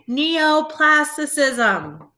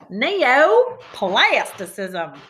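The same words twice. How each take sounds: First: It is said in a plain, ordinary voice. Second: It is said in a put-on cowboy accent. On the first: "Say it with me" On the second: "Say it like a cowboy"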